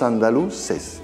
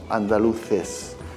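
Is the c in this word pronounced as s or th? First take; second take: s; th. First: The c is pronounced as an s sound. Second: The c is pronounced as a th sound. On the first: This is how the locals say it. "Decimos andaluces" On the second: This is the Castilian way, not the local one. "nosotros no decimos andaluces"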